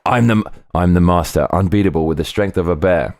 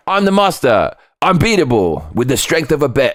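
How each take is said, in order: First: Said in the usual way. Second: Nineties cartoon hero. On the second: Shown as a demonstration. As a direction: boom it out like a nineties cartoon hero's catchphrase. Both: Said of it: "It sounds like a nineties cartoon".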